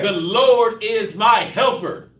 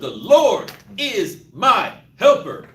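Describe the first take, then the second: First: It is said plainly, without special emphasis. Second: Certain words are said with strong emphasis.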